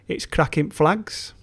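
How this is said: It is said in a Yorkshire dialect.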